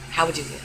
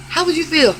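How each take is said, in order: First: The same question dropped low and much softer; quiet afterthought; soft repeat. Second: How WOULD you feel, raised high and louder; pointed loud question; demanding. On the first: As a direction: mutter the question again. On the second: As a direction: challenge them out loud on "would". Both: Shown as a demonstration.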